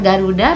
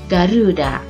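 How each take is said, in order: First: The middle syllable has a short vowel. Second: The middle syllable has a long vowel. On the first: This is how native speakers say it. "biasa saja, tidak memakai bentuk panjang" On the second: This is how Japanese speakers hear and say it. "pada lafal ru perlu dipanjangkan"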